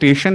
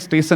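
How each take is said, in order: First: The word uses the standard s and sh sounds. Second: The word mixes up the s and sh sounds. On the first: This is the form he could not manage. The speaker calls it right. "हमारा स्टेशन नहीं निकलता था" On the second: This is how a hill speaker says it. The speaker calls it wrong. "उनका श और स का थोड़ा मसला होता है"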